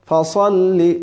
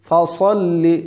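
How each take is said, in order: The two takes are said the same way.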